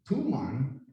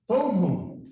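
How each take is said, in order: First: The name is said in the anglicized form. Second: The name is said in the Chamorro form. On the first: This is the current common form. "it wouldn't be" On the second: This is the original Chamorro name. "because that's the original Chamorro pronunciation"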